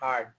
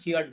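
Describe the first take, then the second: First: It sounds like the word 'hard'. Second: It sounds like 'hear' with a final d. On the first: The speaker calls it right. "যেরকম হার্ড হয়" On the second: The speaker calls it wrong. "হিয়ার হিয়ার্ড হিয়ার্ড বলে"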